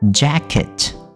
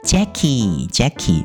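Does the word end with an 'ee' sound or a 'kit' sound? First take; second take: kit sound; ee sound. First: The second syllable ends in a 'kit' sound. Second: The second syllable ends in an 'ee' sound. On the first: The speaker calls it right. "那第二个音节是kit" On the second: The speaker calls it wrong. "有些台湾的老师会念成Jackie，不是Jackie 啊"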